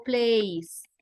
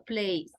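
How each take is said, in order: First: "plays" as the mistaken plural-style ending, drawn out; wrong form of plays. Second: Said in the usual way. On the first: Shown as a demonstration. («plays» mal dicho, como ejemplo de error) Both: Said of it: "no digo plays, sino plays".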